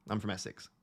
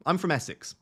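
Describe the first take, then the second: First: I'm from Essex in broad Essex; quiet, broad Essex delivery; Essex accent. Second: Said in the usual way. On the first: Shown as a demonstration. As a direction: drop into her natural Essex. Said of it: "very Essexy accent normally".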